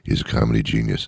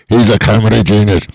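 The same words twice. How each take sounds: First: It is said quietly. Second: It is said loudly.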